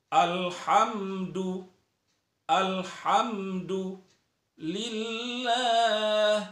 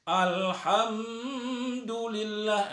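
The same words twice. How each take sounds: First: "alhamdulillah" chanted slowly with thin tarqiq lam; correct clear reading. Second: "Alhamdulillah" drawn out slowly and higher, the wrong way; mistaken reading. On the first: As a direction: recite "alhamdulillah" slow and clear. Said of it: "Jadi, harus dijelaskan". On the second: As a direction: stretch "Alhamdulillah" like the common error. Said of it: "Banyak orang membacanya". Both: Shown as a demonstration.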